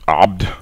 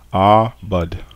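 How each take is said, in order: First: The word is said with a single vowel. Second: The word is said with two vowels. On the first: The speaker calls it wrong. "what you're doing is you're saying abd" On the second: The speaker calls it right. "two vowels"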